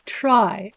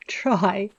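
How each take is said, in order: First: "try" punched out loud and firm; stress on TRY. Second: "try" breathed out in a whisper. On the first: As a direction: lean hard on the word "try". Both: Shown as a demonstration. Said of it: "I emphasize the word try".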